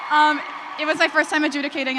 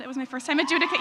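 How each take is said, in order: First: Raised voice. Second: Said in the usual way. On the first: Real, not acted. Repeats the line over the cheering.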